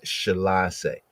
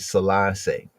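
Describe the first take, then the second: First: The word begins with an sh sound. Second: The word begins with an s sound. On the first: This is how it was said in ancient times. "in ancient times it would have been Shalassie" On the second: This is how it is said today. "today ones might say Selassie"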